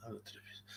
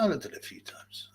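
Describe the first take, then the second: First: Hushed whispered echo. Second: Said in the usual way. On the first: Shown as a demonstration. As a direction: repeat it in a whisper. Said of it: "repeated take". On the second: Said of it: "repeated whispered".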